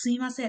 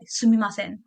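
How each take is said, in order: First: It is said softly in the Japanese manner. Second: It is said with a foreigner's blunt attitude.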